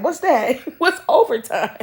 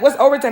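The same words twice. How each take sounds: First: Baffled dad quoted through laughter; mock confusion cracking up mid-quote; laughing. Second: Raised, incredulous question; mock baffled. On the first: Dad hearing of overtime, said laughing. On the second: Dad asking what overtime is, incredulous. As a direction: act out the dad's disbelief.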